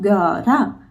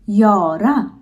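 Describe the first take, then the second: First: The word begins with a hard g sound. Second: The word begins with a y sound. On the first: The speaker calls it wrong. "not Gara" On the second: The speaker calls it right. "that is Yora"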